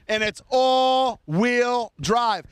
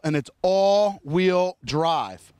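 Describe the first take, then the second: First: "all-wheel drive" slow and drawn out, each word weighted; stress on all-wheel drive. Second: "all-wheel drive" slowed right down, lower, each word pressed; stress on all-wheel drive. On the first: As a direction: hammer home "all-wheel drive" slowly. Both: Shown as a demonstration. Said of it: "tired of hearing me say it".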